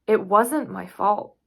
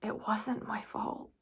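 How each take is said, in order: First: Louder, slow, firm protest; slow, forceful self-defence; insistent. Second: Much softer, as if to herself; quiet, private self-reassurance; hushed. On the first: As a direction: protest your innocence out loud. Insists on innocence, then repeats softer. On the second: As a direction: say it under your breath. Same words repeated after long pause. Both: Acted.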